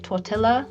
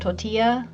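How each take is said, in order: First: The double L is sounded as an L. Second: The double L is sounded like a Y. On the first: It is read the way it is spelled. The speaker calls it wrong. "I've heard people say tortilla instead of" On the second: It follows the original Spanish pronunciation. The speaker calls it right. "instead of tortilla"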